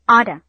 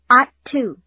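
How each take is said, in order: First: The phrase is said quickly with reduced words. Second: The phrase is said slowly with full words. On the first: "and then quickly" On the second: "first slowly"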